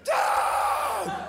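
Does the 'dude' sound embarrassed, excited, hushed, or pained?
pained. It is said as a cry of pain. Badly hurt in an accident. "If he blew off his fingers with some fireworks in Tijuana"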